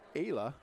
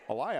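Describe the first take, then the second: First: The name is said as Ayla. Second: The name is said as Elia. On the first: The speaker calls it right. "It's Ayla" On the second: The speaker calls it wrong. "I've been saying her name Elia all night"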